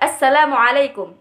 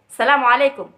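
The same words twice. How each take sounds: First: It is said slowly with every sound clear. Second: It is said very fast with sounds run together. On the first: It is formal standard Arabic. "panjang pendeknya itu ada dan huruf-hurufnya juga jelas" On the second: It is everyday colloquial Arabic. "mereka tuh sangat cepat mengucapkan kalimat itu"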